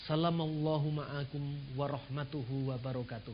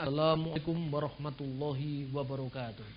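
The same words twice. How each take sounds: First: "Salamallahu ma'akum" said softly and evenly; Arabic variant. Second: Said in the usual way. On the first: Shown as a demonstration. Speaker contrasts the greeting nobody uses, softly. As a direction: say "Salamallahu ma'akum warahmatuhu wabarakatuh" as everyday Arabic. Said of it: "Kan nggak ada yang mengucapkan". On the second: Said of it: "Harus mengucapkannya".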